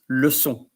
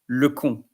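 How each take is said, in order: First: The middle consonant is a soft S sound. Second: The middle consonant is a hard K sound. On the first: It means a lesson. The speaker calls it right. "the second word you will pronounce leçon" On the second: It means a dumb person, an idiot. The speaker calls it wrong. "the first word you will pronounce le con"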